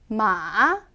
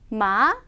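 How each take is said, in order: First: The pitch dips low, then rises. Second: The pitch rises sharply at the end. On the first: It means horse. "내려왔다가 올라가는 음" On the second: It means hemp. "끝을 확 올려주시고요"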